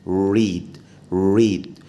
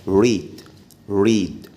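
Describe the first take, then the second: No difference in how they are said.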